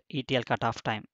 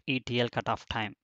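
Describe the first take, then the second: No difference in how they are said.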